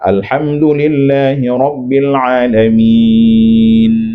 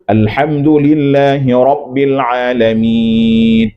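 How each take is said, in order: First: The final n is held with a light nasal hum. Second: The final n is cut short, sounding like d. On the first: The speaker calls it right. "Hmm, hmm" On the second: The speaker calls it wrong.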